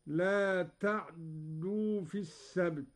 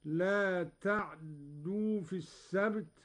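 First: تعدوا said "ta'-dduu", closed ayn and doubled d; silent vowel on ayn. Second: تعدوا with a fleeting a after the ayn, doubled d; barely touch the vowel on the ayn in تعدوا; snatched vowel on ayn. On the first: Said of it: "بإسكان العين". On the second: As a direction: Qalun reading, snatched "ta'(a)dduu" for تعدوا. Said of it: "واختلاسها هكذا". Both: Shown as a demonstration.

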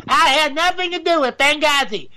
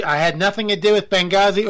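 First: "I had nothing to do with Benghazi" pitched high in a put-on woman's voice; a high, hammed-up Hillary; Hillary Clinton. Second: "I had nothing to do with Benghazi" in a barely changed voice; a first, flat try at Hillary; failed Hillary. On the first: Host retrying a Hillary impression, high put-on voice. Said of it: "I can't do a Hillary Clinton". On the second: Host attempting a Hillary impression, failed first try. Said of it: "Oop, wrong accent". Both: Shown as a demonstration.

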